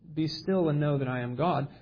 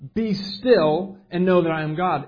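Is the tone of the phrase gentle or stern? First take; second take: gentle; stern. First: It is said softly, in a calm, soothing tone. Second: It is said firmly, in a sharp, commanding tone. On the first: It invites quiet reflection and comfort. The speaker calls it wrong. "the tone of it is less" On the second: It rebukes opponents and orders them to stop. The speaker calls it right. "It's more like a sit down, shut up, listen up, I'm God"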